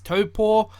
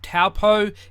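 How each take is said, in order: First: It is said with a Māori-style pronunciation. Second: It is said with an English-style pronunciation. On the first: The speaker calls it right. "the correct pronunciation is Taupo" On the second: The speaker calls it wrong. "I just say it the Pakeha way"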